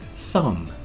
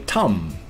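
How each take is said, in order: First: The word begins with a th sound. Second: The word begins with a plain t sound.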